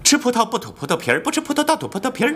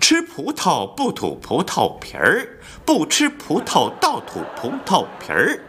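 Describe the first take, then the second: First: It is said fast. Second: It is said slowly.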